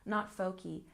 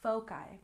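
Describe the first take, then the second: First: The final vowel is not a long I. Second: The final vowel is a long I. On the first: The speaker calls it wrong. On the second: The speaker calls it right. "have the long I sound"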